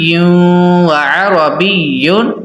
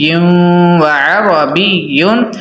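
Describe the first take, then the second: Both takes have the same delivery.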